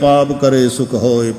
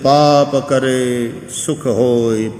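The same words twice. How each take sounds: First: The line is said at a normal pace. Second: The line is said slowly.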